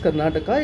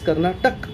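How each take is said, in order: First: The word ends with an extra final vowel. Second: The word ends on the final consonant. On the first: The speaker calls it wrong. "There's nothing as Karnataka" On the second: The speaker calls it right. "it is Karnatak"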